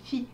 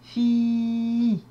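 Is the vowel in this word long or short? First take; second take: short; long. First: The vowel i is short. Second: The vowel i is held long. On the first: The speaker calls it wrong. "je n'ai pas dit fi" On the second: The speaker calls it right. "j'ai dit fi"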